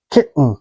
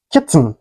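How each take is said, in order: First: KITTEN with a catch for the T, "ki'n"; swallowed T. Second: KITTEN with the T released before N; T fully pronounced. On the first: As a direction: say "kitten" American style, swallowing the T. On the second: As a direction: say "kitten" with an audible T. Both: Shown as a demonstration. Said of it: "is pronounced like".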